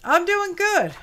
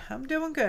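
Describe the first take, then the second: First: High, loud answer for the pet. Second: Said in the usual way. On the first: Pretend. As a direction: answer as the little pet would.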